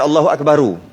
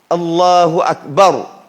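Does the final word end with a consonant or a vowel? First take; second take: vowel; consonant. First: The last word ends with an added u vowel. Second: The last word ends on a silent r. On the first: The speaker calls it wrong. "Bukan Allahu Akbaru. Walaupun boleh" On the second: The speaker calls it right. "sahih lagi jazam"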